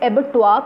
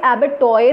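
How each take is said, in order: First: Abattoir ending "-twaa", R silent; correct abattoir pronunciation. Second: Abattoir read as spelt, with the R sounded; mispronounced abattoir. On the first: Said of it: "इसे abattoir पढ़ते हैं". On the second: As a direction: say abattoir the wrong way, ending "-toyr". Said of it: "इसे abattoir नहीं पढ़ेंगे". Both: Shown as a demonstration.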